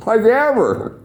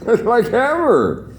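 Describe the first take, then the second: First: "ever" diucapkan tinggi dan ditekan; stress on ever. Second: "ever" slow, high and drawn out with a laugh; laughing slow stress on ever. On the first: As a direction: hit "ever" high and hard. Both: Real, not acted. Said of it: "emphatic repeat".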